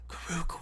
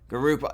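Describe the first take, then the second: First: The name is said in a low, metallic voice. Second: The name is said in a robotic voice. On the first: The speaker calls it right. "Yeah, that was pretty good" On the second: The speaker calls it wrong. "that's like a robot voice"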